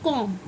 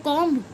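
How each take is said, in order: First: कॉम्ब ending on m; correct silent b. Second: कॉम्ब with the final b sounded; mispronounced comb. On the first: Teacher giving the correct reading, b silent. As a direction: drop the b from कॉम्ब. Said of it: "इसको पढ़ते हैं कॉम्ब". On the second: Teacher showing the wrong pronunciation, b voiced. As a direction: end कॉम्ब on an audible b. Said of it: "कॉम्ब गलत pronunciation है". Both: Shown as a demonstration.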